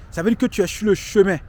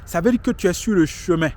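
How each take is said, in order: Both takes have the same delivery.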